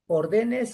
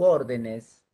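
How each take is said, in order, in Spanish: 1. El acento no está en la primera sílaba. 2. El acento está en la primera sílaba.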